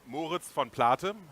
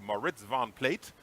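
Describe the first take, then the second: First: The name is said with a German accent. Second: The name is said with an American accent. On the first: "that's the German pronunciation" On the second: "The American pronunciation would be"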